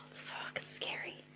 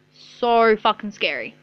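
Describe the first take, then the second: First: Whispered through a sigh, much softer; whispered "it's fucking scary" on a sigh. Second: Said in the usual way. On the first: Real, not acted. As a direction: breathe it out in a whisper.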